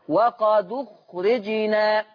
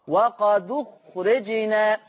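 The two takes are said the same way.

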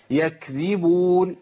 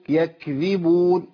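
No difference in how they are said.

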